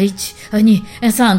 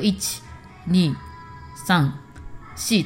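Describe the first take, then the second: First: The counting speeds up nervously. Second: The counting is at a steady tempo.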